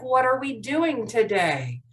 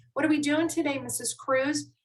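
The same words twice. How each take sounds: First: Slower, deliberate question; slowed down. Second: Quick question. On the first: Shown as a demonstration. Teacher repeats the important question, slowing down. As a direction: give each word more room. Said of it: "I'll try to slow down". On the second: Acted. Student asks teacher about today's lesson, quickly. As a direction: rattle off the question in one breath. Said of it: "The reason why I'm talking so fast".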